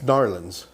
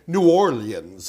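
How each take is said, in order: First: The name is squeezed into two quick syllables. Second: Each syllable of the name is said fully. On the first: This is how locals say it. The speaker calls it right. "It's Narlands. It's always been Narlands" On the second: This is how an outsider says it. The speaker calls it wrong. "I'm sure you say New Orleans as well"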